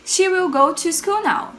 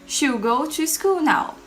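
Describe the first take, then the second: First: Will is said as a full separate word. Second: Will is contracted and joined to she.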